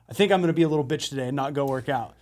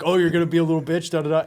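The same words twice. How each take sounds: First: Said in the usual way. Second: Louder, quick teasing imitation; mock taunting. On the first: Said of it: "put myself in the group and was like". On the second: Accountability group calling out a friend, mock taunting. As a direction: lightly mimic friends calling you out. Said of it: "and then they're like".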